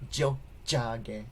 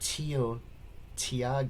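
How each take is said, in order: First: The words begin with a J sound. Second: The words begin with a plain T sound. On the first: The speaker calls it right. "The T is more like a D or J" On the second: The speaker calls it wrong. "it's not Tio Tiage"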